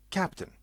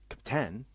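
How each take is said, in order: First: The stress is on the first syllable. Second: The stress is on the second syllable. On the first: The speaker calls it right. "The first half, cap, is said stronger" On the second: The speaker calls it wrong. "It's not captain"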